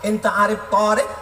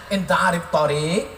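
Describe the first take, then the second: First: The first vowel of the last word is long. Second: The first vowel of the last word is short. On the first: It asks whether the driver knows a man named Tariq. The speaker calls it wrong. "Gara-gara alifnya dia pasang di tengah" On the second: It asks whether the driver knows the road. The speaker calls it right. "padahal yang betul mestinya dia tanya"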